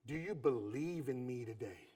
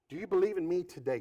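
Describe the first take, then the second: First: Quiet, low asking; a hushed husband's plea to his wife; soft low plea. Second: Faster, pressing question; husband pushing the question to his wife; quicker urgent plea. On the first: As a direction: ask it softly and low. Husband's question, first take. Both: Retold or imitated.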